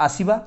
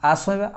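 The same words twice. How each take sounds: The two takes are said the same way.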